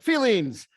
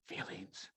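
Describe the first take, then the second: First: The word is said openly at normal volume. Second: The word is said quietly and reluctantly. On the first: The speaker is comfortable talking about emotions. "women are like" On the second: The speaker is uncomfortable talking about emotions. "guys are like"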